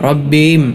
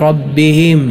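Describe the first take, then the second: The two takes are said the same way.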